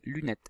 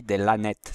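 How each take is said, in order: First: Said in the usual way. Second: "lanettes" said with la in place of lu; "lanettes", first syllable sounded as la; wrong syllable. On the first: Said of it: "lu, pas là". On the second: Shown as a demonstration. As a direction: show the mistaken reading "lanettes". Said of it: "sinon on dit des lanettes".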